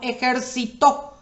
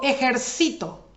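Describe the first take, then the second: First: The stress is on the last syllable. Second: The stress is on the second-to-last syllable. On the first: "Ahí es aguda, lleva tilde en la última sílaba" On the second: "se vuelve en palabra grave... la penúltima"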